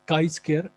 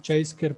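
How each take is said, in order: First: The first word sounds like "kai". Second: The first word sounds like "chai". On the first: The speaker calls it right. "इसकी सही pronunciation जो है वो काई square" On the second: The speaker calls it wrong. "अक्सर लोग जो है वो इसको चाई स्क्वायर पढ़ते हैं"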